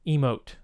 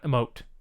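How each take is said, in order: First: The first vowel is a long 'ee' sound. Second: The first vowel is a short, reduced sound. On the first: The speaker calls it right. "it's a long e" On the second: The speaker calls it wrong. "not a short e"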